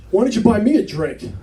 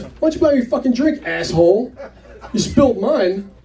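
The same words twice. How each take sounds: First: Higher-pitched imitation of a pushy barfly; mildly put-out demand, acted out. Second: High, quick mock anger; pushy, higher-pitched telling-off, acted out; irritated demand. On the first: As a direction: imitate a woman wanting payback. Retold woman demands a drink. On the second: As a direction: imitate an angry barfly escalating. Woman repeats demand, now swearing.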